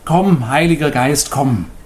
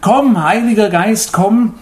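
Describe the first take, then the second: First: The call is spoken at moderate volume. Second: The call is spoken loudest, sounding desperate.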